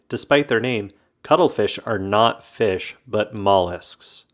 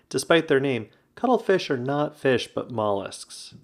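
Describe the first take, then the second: First: It is said with strong, forceful emphasis. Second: It is said with lighter, milder emphasis.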